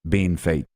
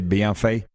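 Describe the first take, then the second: First: The name is said like English 'bean fate'. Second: The name is said with French-style sounds. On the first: This is how locals in the province say it. "we in Sask say Bean Fate" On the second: This is the supposedly proper pronunciation. "I think you're supposed to say Bienfait"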